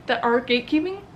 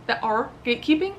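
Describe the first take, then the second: No difference in how they are said.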